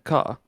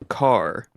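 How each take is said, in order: First: The R sound is soft and barely pronounced. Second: The R sound is hard and strongly pronounced. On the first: "you make the R's a little bit softer" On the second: "In the English verse, it's car"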